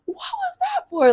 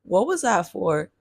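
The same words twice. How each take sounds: First: Very high-pitched mock confrontation; mock challenging kid. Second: Understated retold bewilderment at usual pitch; mildly distraught. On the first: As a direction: imitate a kid daring to question an adult, way up high. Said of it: "I was never that kid to be like". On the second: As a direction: ask it with a touch of hurt confusion. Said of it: "I'm just distraught".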